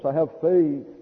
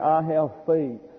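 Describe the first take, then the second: First: The voice quivers with emotion. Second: The voice is steady and plain. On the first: "to say it with sort of a little quivering tone to your voice" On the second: "To say"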